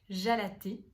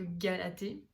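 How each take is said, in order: First: The name starts with a soft 'zh' sound. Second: The name starts with a hard 'g' sound. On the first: The speaker calls it right. "je pense qu'on dit comme ça" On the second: The speaker calls it wrong. "ça me semble plus logique que Galaté"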